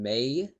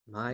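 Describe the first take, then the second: First: The name rhymes with 'day'. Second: The name rhymes with 'eye'. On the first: The speaker calls it wrong. "I hate some of the pronunciations of names" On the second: The speaker calls it right. "when it should be my"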